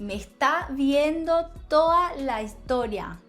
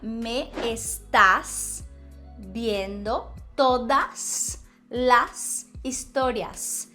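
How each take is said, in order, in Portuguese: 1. Os S finais são omitidos. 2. Os S finais são pronunciados. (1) "Veja que elas cortaram todos os S's finais" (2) "Quando na verdade seria"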